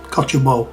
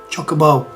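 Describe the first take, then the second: First: The word begins with a 'coch' sound. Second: The word begins with a 'choc' sound. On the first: This is how other people say it. The speaker calls it wrong. "some people are saying it as cockabo or cochabo" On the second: This is how the speaker has always said it. The speaker calls it right. "we're breaking it down as in chocolate uh, and bow"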